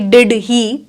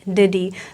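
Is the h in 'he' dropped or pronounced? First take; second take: pronounced; dropped. First: The h sound in 'he' is pronounced separately. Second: The h is dropped and the words merge together. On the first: The speaker calls it wrong. "ना कि डिड ही" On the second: The speaker calls it right. "But डिडी"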